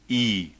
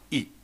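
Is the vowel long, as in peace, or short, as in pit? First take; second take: long; short. First: The vowel is long, as in peace. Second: The vowel is short, as in pit. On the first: The speaker calls it right. "this particular symbol would always sound as E" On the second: The speaker calls it wrong. "and not E"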